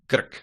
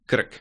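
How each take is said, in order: Both takes have the same delivery.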